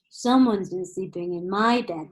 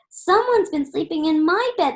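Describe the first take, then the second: First: It is said in Daddy Bear's loud, deep roar. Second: It is said in Baby Bear's high squeak.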